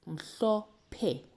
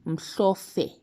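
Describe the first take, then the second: First: The middle consonant is a P sound. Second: The middle consonant is an F sound. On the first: The speaker calls it right. "It's mhlophe. We still get the P sound" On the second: The speaker calls it wrong. "It's not mhlofe"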